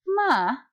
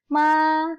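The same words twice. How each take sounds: First: The pitch dips low and then rises. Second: The pitch stays high and level. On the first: "Jadi dia naik, tapi diturunkan lagi" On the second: "kalau nada satu dibacanya ma"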